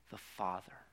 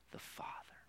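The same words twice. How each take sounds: First: Said in the usual way. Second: Whispered the Father; whispered repetition of the Father. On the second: Real, not acted. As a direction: breathe the Father softly. Repeating the word, fading.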